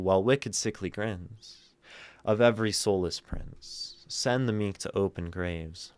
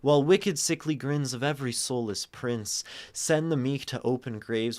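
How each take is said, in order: First: The long line is broken up by pauses. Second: The long line runs on in one breath. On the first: "Or we can do" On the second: "We can like plunge through these long lines"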